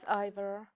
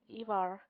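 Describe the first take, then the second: First: The name is said in an English way. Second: The name is said in a Scandinavian way. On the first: The speaker calls it wrong. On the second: The speaker calls it right.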